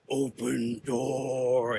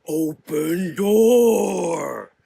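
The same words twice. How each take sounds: First: Slow, drawn-out monster growl; a hint of a fire creature growling at the sisters; deep booming growl. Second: Slow, louder furious roar; angry rumble. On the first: Fire creature to the assault team, slow menacing growl. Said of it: "it growled in a deep, booming voice". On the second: Fire creature enraged at the sisters, slow furious roar. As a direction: bellow the words out in rage. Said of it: "rumbled in heightened anger". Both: A narrator's reading.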